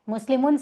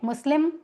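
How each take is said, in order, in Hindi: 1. शब्द के अंत में आखिरी -un ध्वनि है। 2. शब्द के अंत में आखिरी -un ध्वनि नहीं है।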